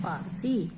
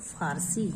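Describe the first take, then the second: First: The first sound is an 'f'. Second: The same.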